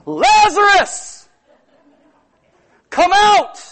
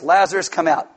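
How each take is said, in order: First: It is shouted in a loud voice. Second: It is said at normal reading volume.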